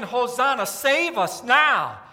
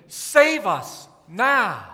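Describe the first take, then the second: First: Louder, with save us now drawn out slowly; slow crowd plea. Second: Drawn out very slowly and a bit louder; slow chanted crowd plea. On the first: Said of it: "they're yelling". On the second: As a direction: plead each word slowly. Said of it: "They were singing". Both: Retold or imitated.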